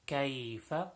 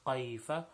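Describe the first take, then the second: First: It starts with a light front k sound. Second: It starts with a deep throaty q sound. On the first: The speaker calls it right. "with the letter kaf" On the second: The speaker calls it wrong. "people recite the kaf like a qaf"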